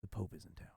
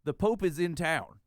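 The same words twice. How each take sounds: First: Conspiratorial low hush; hushed whisper. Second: Louder and slower, spelling it out; slow emphatic repeat; said aloud. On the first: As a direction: drop to a secretive near-whisper, much softer and lower. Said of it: "he leaned in to whisper". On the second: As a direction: repeat it plainly and deliberately so he gets it. Repeats the secret out loud. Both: Retold or imitated.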